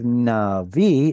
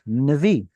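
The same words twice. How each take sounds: First: The first vowel is given its full length. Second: The first vowel is shortened and reduced. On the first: The speaker calls it right. "Instead of navi" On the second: The speaker calls it wrong. "You're reducing them"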